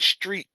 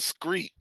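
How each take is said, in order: First: The name begins with an 'str' sound. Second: The name begins with an 'scr' sound. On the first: The speaker calls it right. "Let me say it right" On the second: The speaker calls it wrong. "because I said Screet"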